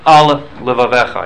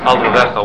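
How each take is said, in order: First: The two words are separated by a pause. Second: The two words run together without a pause. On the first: The speaker calls it right. "You have to pause" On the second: The speaker calls it wrong. "it becomes Al Levavecha, one long word"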